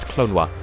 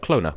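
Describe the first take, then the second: First: The second O sounds like a W. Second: The second O is left out entirely. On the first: "the second O is unvoiced, so it's actually pronounced Clonwa" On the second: "without the second O"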